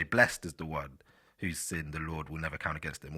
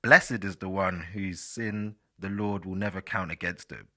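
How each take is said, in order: First: Scripture reading, "Blessed" rhyming with rest; one-syllable blessed. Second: Scripture reading with BLESS-ed for "Blessed"; two-syllable blessed. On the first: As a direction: read it with "Blessed" as blest. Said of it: "Or you could say". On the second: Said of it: "I'll say "blessed". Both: Shown as a demonstration.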